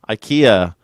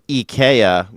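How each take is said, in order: First: Ikea is said the American way. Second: Ikea is said the European way.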